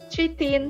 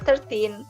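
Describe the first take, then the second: First: The first part is said like 'three'. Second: The first part is said like 'thur'. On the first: The speaker calls it wrong. "jangan thirteen" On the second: The speaker calls it right. "tapi dibacanya adalah thirteen"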